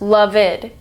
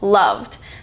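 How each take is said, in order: First: The ending is said as an extra syllable. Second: The word is said as one syllable. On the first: The speaker calls it wrong. "loved isn't pronounced loved" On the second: The speaker calls it right. "it's just loved. So that stays one syllable"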